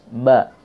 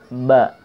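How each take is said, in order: No difference in how they are said.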